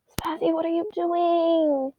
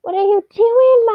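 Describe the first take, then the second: First: Said in the usual way. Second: Much higher, louder cutesy pet voice. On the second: Real, not acted. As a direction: coo it at the cat, high and loud. High baby talk to cat.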